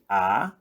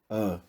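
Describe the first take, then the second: First: The vowel is open, with the mouth wide. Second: The vowel is closed, said further back. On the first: "em vez de A" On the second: "esse chapéuzinho ele serve só para indicar que o som é mais fechado"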